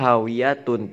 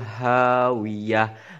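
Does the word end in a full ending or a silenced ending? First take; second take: full ending; silenced ending. First: The word ends with a full -atun ending. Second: The word ends on a silenced final sound. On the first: "Harusnya hawiyatun" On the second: "tidak dibaca huruf tak marbutonya"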